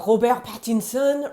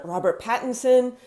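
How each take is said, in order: First: Robert Pattinson as "ro-BEHR pat-in-SON", throaty R; French pronunciation. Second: Said in the usual way. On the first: Shown as a demonstration.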